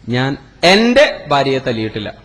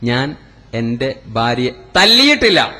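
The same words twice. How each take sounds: First: The second word carries the stress. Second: The last word carries the stress. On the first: A different wife was hit. "എന്റെ ഭാര്യയല്ല ഞാൻ തല്ലിയത്, വേറെ ഭാര്യയാണ്" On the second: She was kicked, not hit. "ചവിട്ടിയിട്ടേ ഉള്ളൂ"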